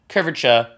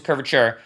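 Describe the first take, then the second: First: Dropped final R in "Curvature", Boston style; Boston accent. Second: Said in the usual way. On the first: Shown as a demonstration. Tutor echoing a slip about the curve, in a Boston accent. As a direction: say "Curvature" like a Bostonian, ending in "-chuh". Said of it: "in a very Boston accent". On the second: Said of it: "supposed to curvature".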